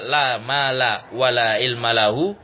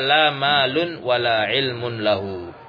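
First: The nouns end in a plain -a sound. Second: The nouns end in an -un sound. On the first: The nouns are fixed (mabni) on fatha. "boleh dimabnikan di atas fathah" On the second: The nouns are read in the nominative case. "boleh pula dibaca rofa"

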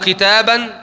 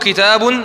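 First: The word ends with the vowel a. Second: The word ends with the vowel u. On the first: "متى أنطق الفتحة" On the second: "متى أنطق الضمة"

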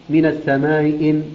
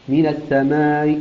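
No difference in how they are said.

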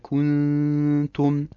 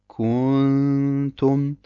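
First: The vowel after k is kept short. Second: The vowel after k is drawn out long. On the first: The speaker calls it right. "Es muss richtig heißen" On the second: The speaker calls it wrong. "Sie haben also ein Wow zwischen dem Kaf und dem Nun hinzugefügt"

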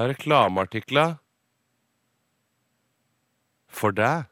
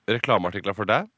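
First: There is a short pause before "for deg". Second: It is said without a pause before "for deg". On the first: The speaker calls it right. "det er en liten pause der" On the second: The speaker calls it wrong.

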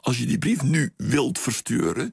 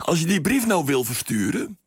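First: It uses the careful forms 'nu' and 'wilt'. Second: It uses the casual forms 'nou' and 'wil'. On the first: This is careful standard language. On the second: This is casual everyday speech.

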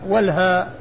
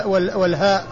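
No difference in how they are said.

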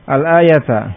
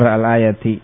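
First: The word ends in a short a vowel. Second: The word ends in a short i vowel. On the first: The word is the object of an implied verb. "Al-ayata bisa dibaca nasab" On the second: The word depends on a preceding noun. "Bisa juga dengan jar al-ayati"

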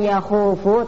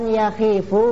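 First: The vowel after kh is a u. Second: The vowel after kh is an i. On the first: "bukan yakhufu" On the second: "bukan yakhifu"

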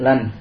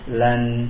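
First: The final n is cut short without nasal hum. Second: The final n is held with nasal hum. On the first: The speaker calls it wrong. "Tidak lan" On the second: The speaker calls it right. "tapi berikan gunahnya"

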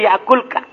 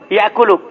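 First: No vowel is heard between the l and k. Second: A vowel is heard between the l and k. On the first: The verb is in the jussive mood. The speaker calls it wrong. "Tidak boleh" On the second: The verb is in the indicative mood. The speaker calls it right. "Ini dibaca ropa ini"

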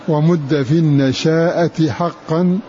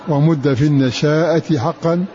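The two takes are said the same way.

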